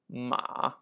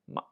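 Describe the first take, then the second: First: The syllable has a dipping third tone. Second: The syllable has a light neutral tone. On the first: It means horse. "Third tone, meaning horse" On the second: It marks a yes-or-no question. "Fifth, neutral tone"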